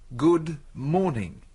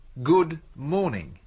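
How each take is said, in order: Both takes have the same delivery.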